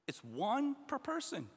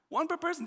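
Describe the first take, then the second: First: Said in the usual way. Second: "One per person" repeated higher, with the weight on "per"; stress on per person. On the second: Shown as a demonstration. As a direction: hammer home "per person".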